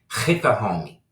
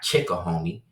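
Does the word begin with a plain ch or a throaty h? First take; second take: throaty h; plain ch. First: It begins with a harsh, throaty h sound. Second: It begins with a plain ch sound. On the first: The speaker calls it right. "that's a hard H. That's the Hebrew H. So you say it like" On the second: The speaker calls it wrong.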